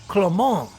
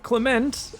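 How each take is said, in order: First: The name is said with a non-English pronunciation. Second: The name is said with an English pronunciation. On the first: The speaker calls it right. "it's Clement" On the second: The speaker calls it wrong. "it's not Clement"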